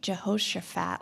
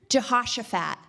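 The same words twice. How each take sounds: First: The middle part does not sound like 'Josh'. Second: The middle part sounds more like 'Josh'. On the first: The speaker calls it wrong. "I wasn't saying it right" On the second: The speaker calls it right. "it's a little bit more like Josh"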